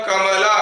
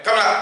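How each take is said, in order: First: Kamala stretched out, each syllable distinct; clearly spaced. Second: Kamala run together quickly; too fast. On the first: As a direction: give each syllable of Kamala its own time. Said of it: "हाँ समझ में". (कमला, साफ़ और ठहरकर) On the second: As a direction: rush Kamala so the syllables blur. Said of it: "तो आपको समझ में नहीं आएगा". (कमला, झटपट एक साथ) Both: Shown as a demonstration.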